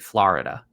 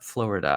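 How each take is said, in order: First: It is said in a Massachusetts accent. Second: It is said in a general American accent. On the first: "That's very Massachusetts" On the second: "instead of saying Florida"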